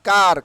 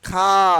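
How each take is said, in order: First: The word ends with an r sound. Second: The word ends without an r sound. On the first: The speaker calls it wrong. "Not কার" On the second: The speaker calls it right. "আর will be silent"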